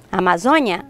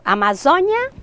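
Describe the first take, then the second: First: Amazônia with an open stressed ó; open vowel. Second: Amazônia with a closed stressed ô; closed vowel. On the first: Teacher listing both forms, Amazônia with open ó. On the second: Teacher listing both forms, Amazônia with closed ô. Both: Shown as a demonstration. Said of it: "com o som mais aberto".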